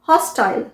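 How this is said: It is said with a British pronunciation.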